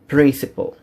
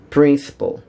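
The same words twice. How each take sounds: First: It is pronounced with English sounds. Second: It is pronounced with English sounds.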